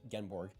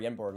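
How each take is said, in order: First: The name begins with a J sound. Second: The name begins with a Y sound. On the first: The speaker calls it wrong. "like it is spelled" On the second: The speaker calls it right. "or Yenborg instead of"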